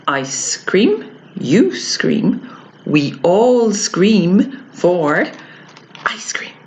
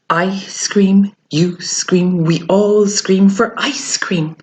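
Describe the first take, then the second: First: Slow, separated phrases with pauses; teacher's slow broken-up tongue twister; stopping between phrases. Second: Tongue twister run straight through; continuous, careful recitation; without stopping. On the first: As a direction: recite it piece by piece, pausing after each. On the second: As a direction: join the phrases up with no pauses. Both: Shown as a demonstration. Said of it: "say it now without stopping".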